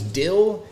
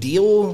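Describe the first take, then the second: First: The vowel is a short 'ih' sound. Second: The vowel is a long 'ee' sound. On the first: "Dill, instead of saying deal" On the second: "instead of saying deal"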